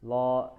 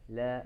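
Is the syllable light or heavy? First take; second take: heavy; light. First: The syllable is heavy, sounding close to lo. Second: The syllable is light, with a clear a vowel. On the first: The speaker calls it wrong. "jangan lo ya, jangan tebal" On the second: The speaker calls it right. "la biasa"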